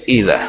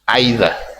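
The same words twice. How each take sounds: First: The first vowel sounds like 'ee'. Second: The first vowel sounds like 'eye'. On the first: "In British" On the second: "In American English, it is I"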